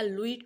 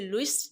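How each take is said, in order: First: The final s sound is left silent. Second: The final s sound is pronounced. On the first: "French में लुई कहते हैं, एस silent है" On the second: "आप इसे लुइस pronounce करें"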